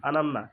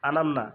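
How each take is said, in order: No difference in how they are said.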